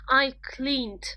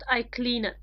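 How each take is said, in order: First: The ending blends in, giving one syllable. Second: The ending is a separate extra syllable. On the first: The speaker calls it right. "It doesn't work on this way" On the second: The speaker calls it wrong. "not I cleaned"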